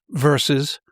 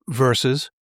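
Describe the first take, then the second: Both takes have the same delivery.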